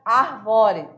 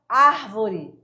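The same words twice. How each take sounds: First: ARVORE stressed on VO; misplaced stress. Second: ÁRVORE stressed on AR; first-syllable stress. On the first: Co-teacher shows the misplaced tonic syllable, second-syllable stress. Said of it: "Senão ficaria". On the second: Co-teacher explains prosody with an example, stress on first syllable. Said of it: "é na primeira sílaba". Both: Shown as a demonstration.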